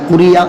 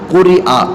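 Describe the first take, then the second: First: A y sound comes before the final vowel. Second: A glottal stop comes before the final vowel. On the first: "तो इसको या कर दें" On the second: "देखें हमज़ा मुनफरिदा मफ्तूहा है"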